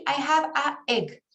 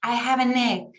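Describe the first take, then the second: First: "I have a egg" with the a and egg cut apart; wrong "a egg". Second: "I have an egg" with the n run into egg; linked "an egg". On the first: Teacher showing students the wrong "a egg". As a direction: say "a egg" with a break between the two vowels. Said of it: "traten de decir". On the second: Teacher showing students the right linked "an egg". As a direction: join "an egg" smoothly as "a-negg". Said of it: "me falta ese sonido". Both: Shown as a demonstration.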